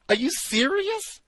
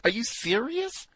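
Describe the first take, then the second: First: Much higher, squeaking in disbelief; shocked disbelief. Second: Higher, incredulous question; disbelief. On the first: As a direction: shriek it, utterly incredulous. Bigger disbelief. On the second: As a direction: ask it in disbelief. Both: Real, not acted.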